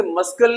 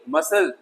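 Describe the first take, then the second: First: मस्कल with the silent C sounded as K; wrong pronunciation. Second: मसल with no K sound; correct pronunciation. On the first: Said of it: "इस तरीके से मस्कल नहीं". (गलत उच्चारण, मस्कल में "क" बोलकर) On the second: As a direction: silent C in मसल. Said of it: "मस्कल नहीं". (सही उच्चारण, मसल में C मूक) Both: Shown as a demonstration.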